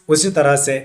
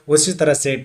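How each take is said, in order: The two takes are said the same way.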